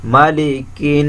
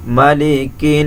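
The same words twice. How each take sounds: First: Slow মালিকিন with the nun hummed; মালিকিন, nasal nun held; মালিকিন stretched nun; ghunna demo. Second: Slow মালিকিন, nun held through the nose; মালিকিন with humming nun; nasal held nun in মালিকিন; ghunna demo. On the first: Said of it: "নুন অবশ্যই গুণনা করতে হবে". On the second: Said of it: "গুণনা করতে হবে". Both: Shown as a demonstration.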